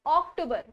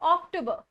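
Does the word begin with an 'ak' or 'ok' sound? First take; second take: ok; ok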